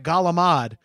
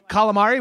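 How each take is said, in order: First: It is said with an Italian-American pronunciation. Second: It is said with a standard pronunciation. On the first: "We call that galamad" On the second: "oh, calamari?"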